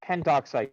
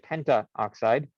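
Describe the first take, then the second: First: No extra vowel comes before 'oxide'. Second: An extra 'a' vowel comes before 'oxide'. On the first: The speaker calls it right. "you say something like pentoxide" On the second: The speaker calls it wrong. "You do not say pentaoxide"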